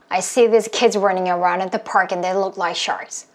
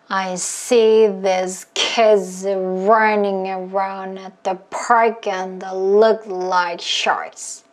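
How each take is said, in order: First: It is said fast. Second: It is said slowly.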